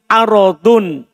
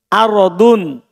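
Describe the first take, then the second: Both takes have the same delivery.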